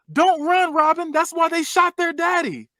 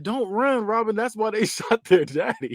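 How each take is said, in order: First: High, drawn-out mimicked holler; slow, high-pitched mock yell; retold yell. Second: Half-hearted high imitation, drawn out; milder retold yell. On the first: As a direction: yell it out high, imitating her warning. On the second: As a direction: repeat her warning as a restrained mock yell. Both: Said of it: "How you just yell something out like that".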